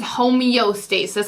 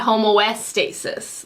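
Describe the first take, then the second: First: An ee sound follows the first syllable. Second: An oh sound follows the first syllable. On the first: The speaker calls it right. "I think it's homeostasis" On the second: The speaker calls it wrong. "I said homoestasis. Like I switched the O and the E"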